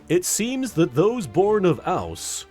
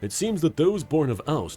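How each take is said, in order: First: It is read very slowly and deliberately. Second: It is read at an ordinary reading speed.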